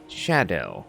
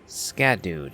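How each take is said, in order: First: The word begins with an 'sh' sound. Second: The word begins with an 'sk' sound. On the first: The speaker calls it right. "it actually is pronounced shadow" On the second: The speaker calls it wrong. "I was reading the name phonetically"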